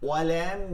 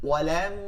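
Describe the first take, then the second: Both takes have the same delivery.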